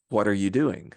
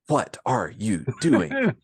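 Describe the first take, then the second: First: The words run together, linked smoothly. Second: Each word is said separately, not linked. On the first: "Instead of the" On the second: "speaking like Captain Kirk"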